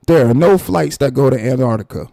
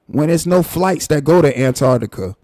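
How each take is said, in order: First: "no" hit louder, each word firm; stress on no. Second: Said in the usual way. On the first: Real, not acted. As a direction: lean hard on "no", spell it out. Restates flight fact for emphasis.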